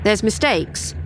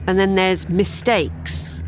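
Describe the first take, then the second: First: Said in the usual way. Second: Slow, drawn-out "mistakes"; stress on second MISTAKES. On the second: A narrator's reading. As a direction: stretch out "mistakes" to mean the serious kind. Second mistakes is the serious kind.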